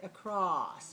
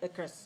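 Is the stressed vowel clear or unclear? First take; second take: clear; unclear. First: The stressed vowel is a clear, long ah. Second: The stressed vowel sounds unclear and weak. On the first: The speaker calls it right. "We have to say across. So the ah has to be a clear sound" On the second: The speaker calls it wrong. "We can't say across... that is not a good pronunciation"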